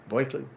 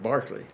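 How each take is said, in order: First: It is said the New York way. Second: It is said the English way. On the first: "The New Yorkers pronounce it Berkeley" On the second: "the English pronounce that Barkley"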